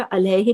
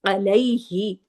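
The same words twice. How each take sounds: First: अलैहि said flat as Urdu अलाहे, no glide in the middle; Urdu-style reading. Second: अलैहि with a gentle bend from अ into ऐ, the लीन sound; soft ai glide. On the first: Teacher showing the wrong Urdu अलैहि, said like अलाहे. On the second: Teacher giving the correct Arabic अलैहि with a soft lin glide. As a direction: let अलैहि turn softly through अलै-हि. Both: Shown as a demonstration. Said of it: "इसको उर्दू की तरह अलैहि नहीं पढ़ेंगे".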